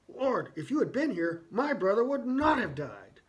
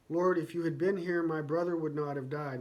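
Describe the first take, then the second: First: It is said in an angry, heated tone. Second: It is said in a calm, mild tone.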